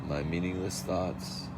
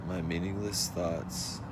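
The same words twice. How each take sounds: Both takes have the same delivery.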